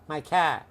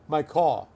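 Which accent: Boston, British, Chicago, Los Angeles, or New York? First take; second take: Boston; New York. First: It is said in a Boston accent. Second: It is said in a New York accent. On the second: "New York"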